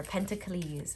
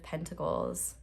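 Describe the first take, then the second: First: Pentacles drawn out slowly in a playful variant; playful mispronunciation. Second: Said in the usual way. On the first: Shown as a demonstration. Tarot reader offering their own name for the suit, playfully mispronounced. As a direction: stretch Pentacles into a pet pronunciation. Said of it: "as I like to say".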